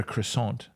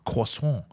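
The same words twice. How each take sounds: First: Said in the usual way. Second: "croissant" as French "kwa-son", nasal ending; perfect French pronunciation. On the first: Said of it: "a croissant". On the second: Retold or imitated. Retelling Gaz's breakfast order, "croissant" in perfect French. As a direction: say "croissant" like a native French speaker. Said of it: "in perfect fucking French".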